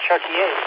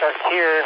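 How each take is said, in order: First: The name is said with a French pronunciation. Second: The name is said with an American pronunciation. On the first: This is the original form of the name. The speaker calls it right. "when it's supposed to be Chartier" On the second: This is the adapted form used for convenience. The speaker calls it wrong. "I have to say Chartier"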